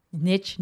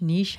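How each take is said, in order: First: "Niche" rhyming with quiche; niche as neesh. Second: "niche" said nitch, short i, ch ending; "niche" rhyming with pitch. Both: Shown as a demonstration. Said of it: "however you wanna say it".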